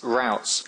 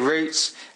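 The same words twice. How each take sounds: First: It is said with an American pronunciation. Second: It is said with a British pronunciation.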